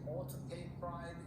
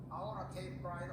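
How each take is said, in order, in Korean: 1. 'ought to'의 두 단어를 모두 분명하고 따로 발음합니다. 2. 'ought to'는 빠르게 이어서 'oughta'로 발음합니다. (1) "정식으로 할 때는" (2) "흘려서는 / 빨리 할 때는 oughta"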